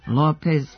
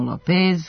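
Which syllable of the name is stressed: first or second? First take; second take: first; second. First: The stress is on the first syllable. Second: The stress is on the second syllable. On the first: The speaker calls it right. "akcenat je na prvom slogu" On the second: The speaker calls it wrong. "godinama izgovaramo Lopez"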